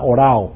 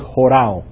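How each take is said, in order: First: The word begins directly with a vowel. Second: The word begins with a breathy h sound. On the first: The speaker calls it wrong. "si el acento fuera así, fuera orao" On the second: The speaker calls it right. "pero es jorao"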